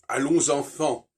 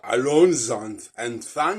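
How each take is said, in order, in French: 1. Elle est prononcée avec les voyelles nasales d'un français natif. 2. Elle est prononcée avec des voyelles nasales étrangères, non françaises.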